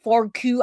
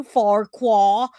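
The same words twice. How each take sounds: First: Farquhar said as "fork-oo"; unsure pronunciation. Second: Farquhar said slowly as "fork-waw"; unsure pronunciation. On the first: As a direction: say Farquhar with a "koo" ending. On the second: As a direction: say Farquhar with a "kwaw" ending. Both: Shown as a demonstration. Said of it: "I don't even know how to say that".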